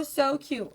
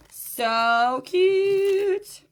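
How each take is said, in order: First: Said in the usual way. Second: High gushing squeal of delight; excited squeal. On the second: Real, not acted. Seller gushing over a cute necklace to viewers, high excited squeal. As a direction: squeal it out, thrilled with the piece.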